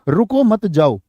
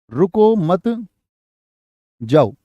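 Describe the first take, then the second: First: Said in the usual way. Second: Group मत with रुको, dropping on जाओ after the pause. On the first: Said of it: "क्या बोलेंगे?". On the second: Shown as a demonstration. Teacher showing the sentence can be misheard, long pause after मत. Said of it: "अब वो सोच, सुनने वाला सुन ले".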